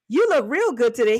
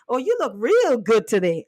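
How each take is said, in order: First: The word 'real' is not stressed. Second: The word 'real' is strongly stressed.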